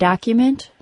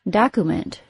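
First: The second syllable has a Y sound before oo. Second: The second syllable has a plain oo, no Y. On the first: The speaker calls it right. "or document" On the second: The speaker calls it wrong. "pronounced document"

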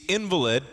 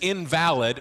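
First: The stress is on the first syllable. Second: The stress is on the second syllable. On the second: Something without worth. "meaning without worth"

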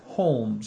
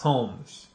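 First: An L sound is pronounced before the m. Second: No L sound is pronounced before the m. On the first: The speaker calls it wrong. "I put a little L in there" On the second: The speaker calls it right. "He's telling me not to put an L"

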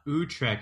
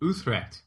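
First: The word is said plainly, without a wispy sound. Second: The word is said with a breathy, wispy sound. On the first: The speaker calls it wrong. "it's not Utrecht" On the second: The speaker calls it right. "a little wispy"

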